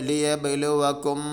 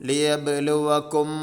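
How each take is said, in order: The two takes are said the same way.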